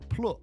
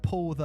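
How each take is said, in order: First: The word 'the' is reduced to a 't'. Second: The word 'the' is said in full. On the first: "it's plut" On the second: "instead of pull the"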